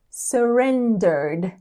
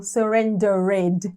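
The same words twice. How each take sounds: First: Surrendered with a silent E, straight from R to D, "sur-ren-derd"; surrendered with no vowel before the D; correct pronunciation. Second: Surrendered with the final E sounded, "sur-ren-de-red"; surrendered said slowly, every syllable spelled out with a full "-ed"; wrong pronunciation. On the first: Teacher showing students the right way, surrendered ending in "-derd". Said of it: "vai direto do som do R pro som do D". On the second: Teacher showing students the wrong way, surrendered with a sounded E. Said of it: "a gente não diz, por exemplo". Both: Shown as a demonstration.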